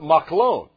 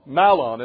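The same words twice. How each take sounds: First: It is said the Hebrew way. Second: It is said the way it is spelled. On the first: The speaker calls it right. "but Mahlon" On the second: The speaker calls it wrong. "Mahlon is what it looks like"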